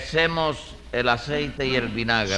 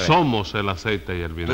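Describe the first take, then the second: First: "hacemos" said as "semos", first vowel turned to e; mispronounced "somos". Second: "Somos" with a clear o in the first syllable; correcting "Somos". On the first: Litigant explaining a quarrel to the judge, mispronouncing "somos" as "semos". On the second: Judge corrects the litigant's grammar, stressing "Somos". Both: Acted. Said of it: "que se dice así".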